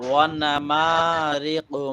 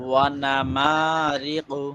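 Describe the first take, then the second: The two takes are said the same way.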